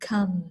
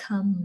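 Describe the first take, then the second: The two takes are said the same way.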